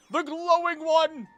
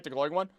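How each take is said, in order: First: Higher, louder and slow, stressing one; insistent call. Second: Said in the usual way. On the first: Real, not acted. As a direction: call it out so they finally see it. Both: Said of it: "repeats louder".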